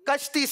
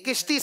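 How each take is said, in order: First: The first vowel is 'a'. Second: The first vowel is 'i'. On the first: The speaker calls it right. "कश्ती सही है" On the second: The speaker calls it wrong. "किश्ती सही नहीं है"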